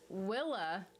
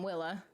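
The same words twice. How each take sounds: First: Said in the usual way. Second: Willa said with a questioning upward lilt; odd rising Willa. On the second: Real, not acted. Streamer trips on the name Willa, rising lilt. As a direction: let Willa float up like a question. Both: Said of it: "I don't know why I said it like that".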